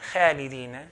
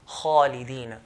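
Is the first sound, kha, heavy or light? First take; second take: light; heavy. First: The kha sound is light, without heaviness. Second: The kha sound is heavy, with the tongue raised. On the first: The speaker calls it wrong. "I've not pronounced it properly" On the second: The speaker calls it right. "with heaviness, by elevating the back of the tongue"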